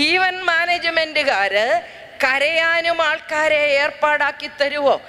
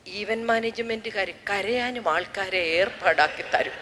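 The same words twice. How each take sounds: First: Slow, deliberate repeat of the question; slow punchline repeat to the audience. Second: Softer, lower question to the sister; quiet funeral aside to sister; hushed aside. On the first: Shown as a demonstration. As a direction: spell it out slowly for the crowd. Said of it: "repeat to audience". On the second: Retold or imitated. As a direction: murmur it so only she hears. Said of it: "സിസ്റ്ററോട് ചോദിച്ചു".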